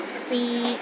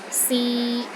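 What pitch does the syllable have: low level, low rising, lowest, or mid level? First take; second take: mid level; mid level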